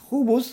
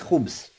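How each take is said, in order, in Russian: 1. Между последними двумя согласными слышен гласный. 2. Между последними двумя согласными гласный не слышен. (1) "Хубус можно облегчить" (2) "облегчить и говорить хубс"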